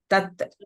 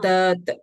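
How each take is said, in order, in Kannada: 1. ಈ ಸ್ವರವನ್ನು ಹ್ರಸ್ವವಾಗಿ ಹೇಳಲಾಗುತ್ತದೆ. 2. ಈ ಸ್ವರವನ್ನು ಉದ್ದವಾಗಿ ಎಳೆದು ಹೇಳಲಾಗುತ್ತದೆ.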